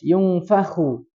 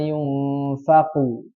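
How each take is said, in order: First: The last syllable has a rasping throaty kh sound. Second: The last syllable has a hard stopped k sound. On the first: The speaker calls it right. "Kalau kho itu harus ada aliran" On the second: The speaker calls it wrong. "jangan dibaca yauma yunfaqu"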